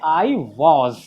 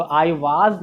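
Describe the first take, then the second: First: "was" with a rounded "aw"; correct "was". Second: "was" with a long open "aa"; wrong "was". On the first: Teacher giving the right form, "was" as "vawz". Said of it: "हम लोग क्या बोलेंगे". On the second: Teacher showing what not to say, "was" as "vaaz". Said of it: "ना बोलकर". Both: Shown as a demonstration.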